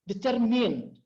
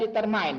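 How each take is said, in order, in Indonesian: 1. Suku kata terakhir terdengar seperti 'min'. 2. Suku kata terakhir terdengar seperti 'mine'.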